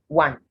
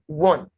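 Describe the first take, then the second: First: The vowel is not an O sound. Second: The vowel is an O sound. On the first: The speaker calls it wrong. "So this word is not want" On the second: The speaker calls it right. "A, giving the sound O"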